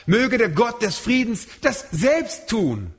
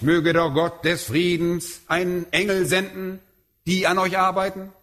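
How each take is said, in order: First: „selbst“ langsam und schwer betont; Betonung auf selbst. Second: Said in the usual way. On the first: Retold or imitated. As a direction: jedes Wort gewichtig, besonders „selbst“. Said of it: "Er sagt". („selbst“ langsam und nachdrücklich betont) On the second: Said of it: "Er sagt nicht".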